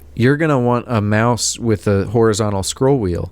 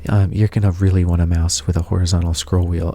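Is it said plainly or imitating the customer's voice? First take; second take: plainly; imitating. First: It is said in a plain, ordinary voice. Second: It imitates the customer's voice and manner.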